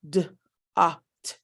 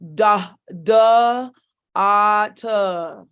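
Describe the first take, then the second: First: Each stop sound is cut off short. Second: Each stop sound carries an added vowel. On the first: The speaker calls it right. "we stop the stop sounds" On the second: The speaker calls it wrong. "You don't want to sit here"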